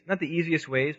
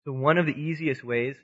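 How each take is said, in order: First: "not" lifted and leaned on as a correction; stress on not. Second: Said in the usual way. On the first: Shown as a demonstration. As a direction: correct yourself by hitting "not".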